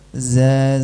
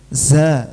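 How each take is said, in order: First: The z is voiced without any hiss of air. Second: The z is said with an audible hiss of air. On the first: The speaker calls it right. "Yang benar" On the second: The speaker calls it wrong. "Kalau saya kasih angin jadi za, ... Ada anginnya, ini salah"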